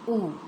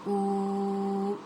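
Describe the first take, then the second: First: The vowel is held for one short beat. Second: The vowel is held for two beats. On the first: The speaker calls it right. "only one count" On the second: The speaker calls it wrong. "it's two counts"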